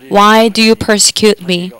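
It is said in a kind, loving tone.

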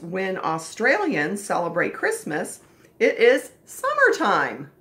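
It is said with excited, strong feeling.

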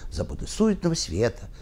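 The emphasis falls on the word света. The line is read for its rhyme. The speaker calls it wrong.

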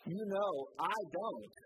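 It sounds dismissive, like don't ask me.

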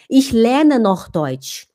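The voice sounds strong and authoritative. The speaker seems competent and self-assured. The speaker calls it right. "a voz ela ficou mais forte, mais autoritária"

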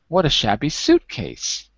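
The strongest stress falls on 'suitcase'. "Let's hear the high stress on suit"

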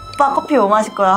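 It is said in a bright, cute way. "약간 귀엽게"

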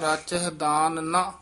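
There is a pause right after 'naa'. The meaning is changed completely. The speaker calls it wrong. "ਜੇ ਇੰਜ ਬੋਲ ਦਿੱਤਾ ਰਾਚਹਿ ਦਾਨ ਨਾ, ਤਾਂ ਉਹਦਾ ਅਰਥ ਜ਼ਮੀਨ ਅਸਮਾਨ ਦਾ ਅੰਤਰ ਹੋ ਜਾਏਗਾ"

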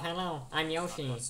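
The voice is low-pitched. This is how the voice sounds after puberty. "To going like"

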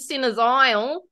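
It is said in a broad bogan Australian accent.

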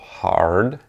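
The r after the vowel is clearly pronounced. "Das R wird im amerikanischen Englisch immer ausgesprochen"

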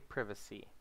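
It is said with a British pronunciation. "They might say privacy in Britain"

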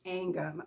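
It is said the Southern way.

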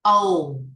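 The vowel sounds like a gliding 'oh'. "tiếng Anh mà của người bản xứ thì người ta sẽ đọc là theo âm O"

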